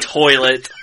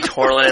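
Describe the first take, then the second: First: The word is said without an R sound. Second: The word is said with an R sound. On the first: "I don't say toilet" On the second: "There's no R in toilet, but there is in my world"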